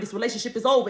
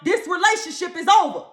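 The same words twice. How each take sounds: First: It is said in a firm, stern voice. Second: It is said loudly and forcefully. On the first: A firmer second warning. "he says in a stern voice" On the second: A final, frightening warning. "he get all the way up in your face"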